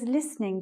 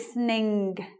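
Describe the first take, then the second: First: The final G is heard faintly and softly. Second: The final G is sounded clearly and strongly. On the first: The speaker is making an effort to enunciate well. "you hear my G. It's very soft, but it's there" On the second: This is a feature of some northern accents. "Some some of the accents uh, ring the G"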